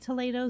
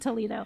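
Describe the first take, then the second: First: The name is said in a fancier-sounding way. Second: The name is said in a plain, ordinary way. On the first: The speaker wants to sound sophisticated. The speaker calls it wrong. "people just say Toledo so they sound a little fancier" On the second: This is the actual name. The speaker calls it right. "I think it's actually Toledo"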